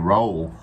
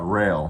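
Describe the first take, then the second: First: The name is said with an 'oh' vowel. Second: The name is said with an 'ay' vowel. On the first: The speaker calls it wrong. "you'd think would be roll" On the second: The speaker calls it right. "it's called Rail is how you pronounce it"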